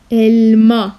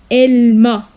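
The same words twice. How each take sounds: The two takes are said the same way.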